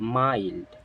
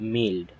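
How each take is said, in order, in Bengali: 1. স্বরধ্বনিটি 'eye' ধ্বনির ডিফথং। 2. স্বরধ্বনিটি ছোট 'i' ধ্বনি। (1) "এর উচ্চারণ হবে মাইল্ড" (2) "ইটস নট মিল্ড"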